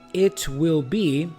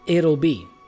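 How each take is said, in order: First: It is said as two full words. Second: It is squeezed into one contracted word.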